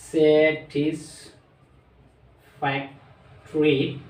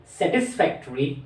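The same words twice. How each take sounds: First: Very slow, each of the four syllables of satisfactory pulled apart. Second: Said in the usual way. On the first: Shown as a demonstration. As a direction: stretch satisfactory out for the class, ending on a rise. (Satisfactory খুব ধীরে ভেঙে ভেঙে) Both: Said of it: "চারবার উচ্চারণ করা হয়".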